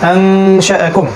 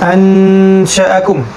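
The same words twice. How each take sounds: First: The n is hidden in a nasal hum before sh. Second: The n is pronounced clearly before the sh. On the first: The speaker calls it right. "হবে" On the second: The speaker calls it wrong. "এটা না"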